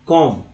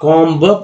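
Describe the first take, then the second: First: कॉम्ब as "kom", no b; correct silent B. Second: कॉम्ब as "kom-ba", b released hard; common mispronunciation. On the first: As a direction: end कॉम्ब on a falling m. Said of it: "कॉम्ब पढ़ना". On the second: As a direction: voice the final b of कॉम्ब with a small vowel after it. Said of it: "लेकिन लोग क्या करेंगे". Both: Shown as a demonstration.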